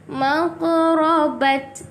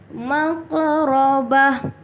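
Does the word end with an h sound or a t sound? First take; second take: t sound; h sound. First: The word ends with a t sound. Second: The word ends with an h sound. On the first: The speaker calls it wrong. "Kita tak baca maqrabat" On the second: The speaker calls it right. "perlu bertukar menjadi huruf ha"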